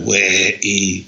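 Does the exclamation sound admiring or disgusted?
disgusted. It is said in a disgusted, put-off tone. The speaker is repelled by something. "if it's something where you're a bit disgusted or put off by, you can go"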